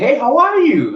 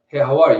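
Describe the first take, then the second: First: The greeting sounds bright and cheerful. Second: The greeting sounds flat and unemotional. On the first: The speaker reveals too much eagerness. The speaker calls it wrong. "it sounds too happy" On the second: The speaker keeps an air of mystery. The speaker calls it right. "you're not you're not showing him much"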